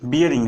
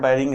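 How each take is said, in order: First: The first syllable is said as 'bee-ya'. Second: The first syllable is said as 'bai'. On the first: This is the proper technical way of saying it. The speaker calls it right. "लेकिन जो उच्चारण है वो क्या है? बियरिंग है।" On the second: This is the everyday casual way of saying it. The speaker calls it wrong. "Normal हम लोग बोल देते हैं यार बैरिंग है"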